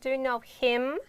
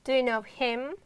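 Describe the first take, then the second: First: The h at the start of him is pronounced. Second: The h at the start of him is pronounced.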